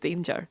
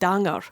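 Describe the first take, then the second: First: The word gets its ordinary, familiar pronunciation. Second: The word gets an unfamiliar, spelled-out pronunciation. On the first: The word was finally recognised. The speaker calls it right. "eventually realised that the word was danger" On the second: A child misread the written word. The speaker calls it wrong. "she couldn't work out why there were signs on the roads that said danger"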